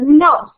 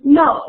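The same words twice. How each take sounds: First: The pitch dips low and then rises. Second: The pitch falls sharply from high to low. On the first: "third tone" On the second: "the fourth tone"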